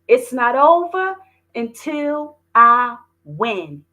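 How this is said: It is said with strong confidence.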